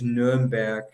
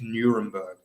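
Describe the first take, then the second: First: The name is said with German pronunciation. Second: The name is said with British English pronunciation. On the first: "the German pronunciation is" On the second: "the British is"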